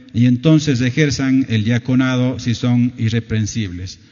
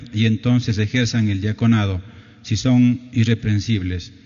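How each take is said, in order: No difference in how they are said.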